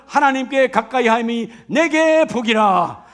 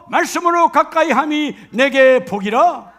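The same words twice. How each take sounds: First: Slow, weighty reading with 내게 stressed; 가까이 함이 내게 복이라 spoken slowly with a falling close; slow emphatic scripture. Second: Slow, loud verse with 가까이 stressed; 가까이 함이 내게 복이라 proclaimed slowly with a falling close; slow emphatic scripture. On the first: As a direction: lean on 내게 and let the verse fall. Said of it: "scripture proclaimed slowly". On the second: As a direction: lean on 가까이 and drop at the end. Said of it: "오늘 말씀처럼". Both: Shown as a demonstration.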